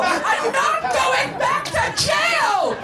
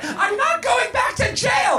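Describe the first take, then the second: First: Very high, hugely drawn-out scream; escalated frantic screaming. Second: High, slow outraged shout; frantic refusal. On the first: Missus Garrett insists she won't risk jail, escalated screaming. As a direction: stretch every word into a hammed-up screech. Same refusal repeated, more drawn out. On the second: Missus Garrett refuses to risk jail, frantic refusal. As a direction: shout it high in hammed-up panic. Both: A narrator's reading.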